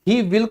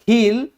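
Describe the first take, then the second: First: It is said as two full words. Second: It is said as one contracted syllable.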